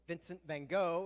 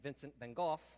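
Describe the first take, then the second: First: The name is said the American way. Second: The name is said the English way.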